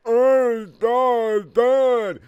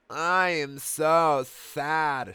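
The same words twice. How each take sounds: First: Very high, loud, slow hammed-up sob; crying. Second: Slow, high mock crying. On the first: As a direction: wail it like an overdone teen. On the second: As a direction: drag it out in a fake sob. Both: A narrator's reading. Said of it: "said Amy in a crying way".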